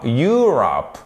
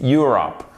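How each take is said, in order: First: Europe with an overlong YOOO at the start; wrong long vowel. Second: Europe as YUR-up, short first vowel; correct short vowel. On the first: Teacher showing what not to say, wrong long vowel. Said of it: "c'est pas Europe". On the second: Teacher correcting the wrong version, short first vowel. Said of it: "C'est avec un O court". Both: Shown as a demonstration.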